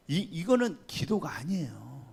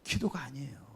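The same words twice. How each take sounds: First: Said in the usual way. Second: Soft whisper, 기도가 breathed with a falling tune; whispered aside. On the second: Real, not acted. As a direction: lean in and whisper 기도가 아니에요 to drive it home. Repeats the point in a whisper. (기도가 아니에요를 속삭이듯 힘주어)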